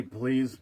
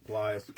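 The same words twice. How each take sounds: First: Said in the usual way. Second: [name] said with a long i, like plies; alternate way to say it. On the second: Shown as a demonstration. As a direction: say please as [name], rhyming with flies. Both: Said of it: "however you wanna say it".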